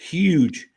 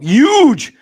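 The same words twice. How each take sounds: First: It is said in a plain accent, H pronounced. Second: It is said in a New York accent, no H.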